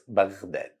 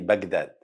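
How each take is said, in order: First: The middle consonant is a throaty gh sound. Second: The middle consonant is a hard g sound. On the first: The speaker calls it right. "it's Baghdad" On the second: The speaker calls it wrong. "Don't say Baghdad"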